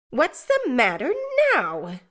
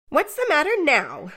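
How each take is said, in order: First: More sharply. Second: Sharp, raised snap at the table. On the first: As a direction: demand it again, impatient. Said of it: "more sharply than before". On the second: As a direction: bark the question at him. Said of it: "said she, smartly". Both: Acted.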